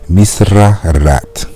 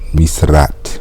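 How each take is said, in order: First: The vowels are kept and it is said slowly. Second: The vowels are cut and the words merge. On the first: The speaker calls it right. "I'm going to say it slowly as much as possible" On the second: The speaker calls it wrong. "I almost say that"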